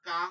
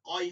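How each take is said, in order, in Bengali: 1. সিলেবলটি পাতলা, খোলা a দিয়ে। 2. সিলেবলটি ভারী, গোলাকার স্বরধ্বনি দিয়ে। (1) "কা হয় না" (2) "কয় হয়"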